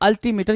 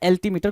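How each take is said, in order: First: The first vowel is an open 'a' sound. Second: The first vowel is an 'e' sound. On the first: "कुछ लोग अल्टीमीटर बोलते हैं" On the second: "कुछ लोग एल्टीमीटर बोलते हैं"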